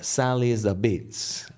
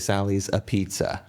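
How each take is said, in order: First: The last word sounds like 'abeets'. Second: The last word sounds like 'a pizza'. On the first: The speaker calls it right. "it's pronounced" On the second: The speaker calls it wrong. "if you read it without knowing how it's pronounced, you would say"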